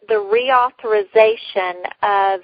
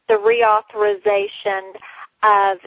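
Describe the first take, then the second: No difference in how they are said.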